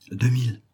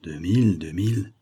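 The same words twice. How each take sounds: First: DEUX MILLE stated a touch high, falling at the end; name "Deux mille" as a firm figure, pitch falling; price stated. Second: "deux mille" said twice in usual pitch, last one rising; price repeated. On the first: Shop owner answers the client's price question, stating it. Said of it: "répondit monsieur Gendre". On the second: Client repeats the price while lifting the lid, weighing it. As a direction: echo "deux mille, deux mille", weighing it, left hanging. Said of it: "répéta le monsieur". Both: A narrator's reading.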